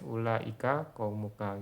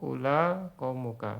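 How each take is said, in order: First: The first word is long, with a glottal stop. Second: The first word is short, without a glottal stop. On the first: This is the form of another dialect, the most eloquent one. "kalau pakai Hijaz" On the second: This is the form of one regional dialect. "kalau Tamim, Bani Tamim ula gitu ya, tanpa hamzah"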